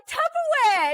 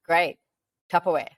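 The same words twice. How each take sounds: First: Very high squeal of mock delight; over-the-top excited. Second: Unimpressed. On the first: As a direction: imitate someone thrilled beyond reason. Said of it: "he was excited". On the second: Retold or imitated. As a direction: imitate a partner who couldn't care less. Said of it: "can you just get real excited for me".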